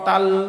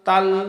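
The two takes are said the same way.

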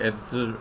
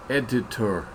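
First: The syllables run together into one quick word. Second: Each syllable is articulated separately and clearly. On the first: "it just runs together" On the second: "I pronounce it a little bit extra articulated like an 8-year-old would"

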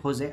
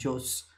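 First: The name begins with an H sound. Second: The name begins with a J sound. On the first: The speaker calls it right. "you need to pronounce it Jose" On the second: The speaker calls it wrong. "I was calling it Jose"

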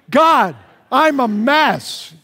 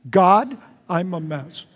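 First: It is said with enthusiasm and excitement. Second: It is said calmly, without excitement.

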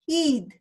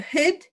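First: The word has an Australian vowel. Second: The word has a New Zealand vowel. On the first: "Whereas the Australians, it's up here, they say heed" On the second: "which means we go hid"

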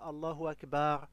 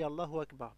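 First: The A in Akbar is drawn out long. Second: The A in Akbar is kept short. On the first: It turns the word into a plural meaning graves. The speaker calls it wrong. "si tu dis Allahu Akbar en prolongeant" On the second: It means God is the greatest. The speaker calls it right. "on dit Allahu Akbar sans prolonger le A"

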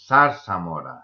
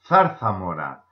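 First: The z sounds like English s. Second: The z sounds like English th. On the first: This is how it is said in Mexico. "And in Mexico City, you would hear zarzamora" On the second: This is how it is said in Spain. "If you are in Madrid, you will hear it pronounced zarzamora"

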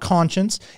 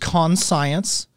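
First: It is said as the usual word conscience. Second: It is split into 'con' plus 'science'. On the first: "It's not conscience" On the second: "It's con science"

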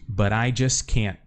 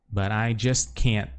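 No difference in how they are said.

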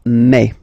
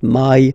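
First: The vowel is a single open 'e'. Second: The vowel glides like English 'my'. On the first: The speaker calls it right. "it's me" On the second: The speaker calls it wrong. "people tend to try to pronounce it, to pronounce it the English way"

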